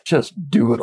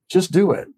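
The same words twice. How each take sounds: First: It is said in an exasperated, impatient tone. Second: It is said in a warm, encouraging tone. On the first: The speaker is fed up with delay. "it can be actually more harsh than do it" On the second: The speaker is cheering someone on. "very encouragingly"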